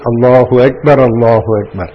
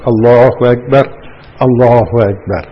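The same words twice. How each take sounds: First: The two phrases run together without stopping. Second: There is a stop between the two phrases. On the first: The speaker calls it right. "it must be said together" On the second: The speaker calls it wrong. "Mustn't make waqf"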